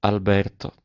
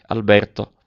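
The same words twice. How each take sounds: First: Sweetly. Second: Said in the usual way. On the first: A narrator's reading. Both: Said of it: "disse dolcemente".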